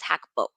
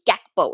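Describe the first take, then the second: First: The name starts with a breathy H sound. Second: The name starts with a hard G sound. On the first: The speaker calls it right. "It's it's Hakpo. that's the Dutch pronunciation" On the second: The speaker calls it wrong. "You're not supposed to say Gakpo"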